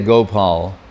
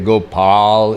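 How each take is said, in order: First: The middle vowel is short and clipped. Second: The middle vowel is open and held long. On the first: The speaker calls it wrong. "He won't say Gopal" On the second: The speaker calls it right. "You have to ah. You have to open your mouth"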